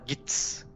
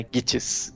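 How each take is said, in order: First: The name is said in a clipped form. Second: The name is said in its full form. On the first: The speaker calls it wrong. "ele fala Gits" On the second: The speaker calls it right. "eles falam Gittes, né, em inglês"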